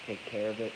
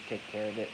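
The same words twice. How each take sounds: The two takes are said the same way.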